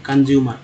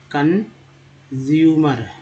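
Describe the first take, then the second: First: Said in the usual way. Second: consumer stretched slowly, each syllable held; extra slow model; very slow demo. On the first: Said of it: "repeat at normal speed". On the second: Shown as a demonstration. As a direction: draw out consumer for learners. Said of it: "pronunciation demo".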